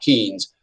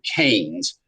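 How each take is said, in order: First: The name is said with the rejected vowel. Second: The name is said with the endorsed vowel. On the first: The speaker calls it wrong. "not Keynes" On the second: The speaker calls it right. "That's how you pronounce this guy's name"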